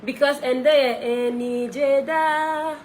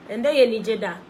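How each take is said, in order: First: Sung slowly and drawn out, high; singing the song. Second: Said in the usual way. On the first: Real, not acted. Singer sings her hit for fans, slow and drawn out. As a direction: croon the hook along with the track.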